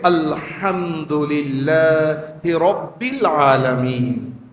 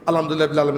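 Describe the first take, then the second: First: It is recited slowly, word by word. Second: It is recited fast, words run together.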